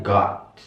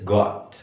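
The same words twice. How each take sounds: First: American 'got' with open ah, gaht; American pronunciation. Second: British 'got' with rounded short o; British pronunciation. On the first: Teacher contrasts accents for students, American pronunciation. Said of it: "Kalau American". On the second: Teacher contrasts accents for students, British pronunciation. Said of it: "Kalau British". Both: Shown as a demonstration.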